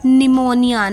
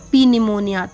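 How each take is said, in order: First: The initial P is silent. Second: An initial P sound is pronounced. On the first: The speaker calls it right. "It's pneumonia" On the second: The speaker calls it wrong. "not P pneumonia"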